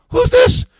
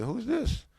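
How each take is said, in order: First: Loud, very high-pitched mock yell; irate rabbi. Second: Softer, high rising query; mock a rabbi answering warily, pitched up and quiet; questioning rabbi. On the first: Rabbi demanding a caller's name, irate shout. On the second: Rabbi answering an unknown caller, quietly questioning. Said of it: "the rabbi said".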